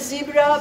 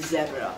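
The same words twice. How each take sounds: First: It is said with an American pronunciation. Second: It is said with a European pronunciation. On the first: "American would say zebra" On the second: "in Europe we would say zebra"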